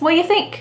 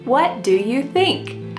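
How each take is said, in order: First: The word 'do' is left out entirely. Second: Every word is said slowly and fully. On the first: "Do is just gone" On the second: "do you think that we really say it this slowly? ... Absolutely not"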